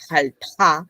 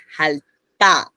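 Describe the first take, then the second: First: Jalta with an airy puff after the T; contrasted aspirated T. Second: Jalta with a hard T, no puff of air; contrasted tense T. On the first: Teacher warning that they sound different, jalta with aspirated T. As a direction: say jalta with the T released into an h. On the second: Teacher warning that they sound different, jalta with tense T. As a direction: hold before the T in jalta, then release it tight. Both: Shown as a demonstration. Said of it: "cuidado, suenan distinto".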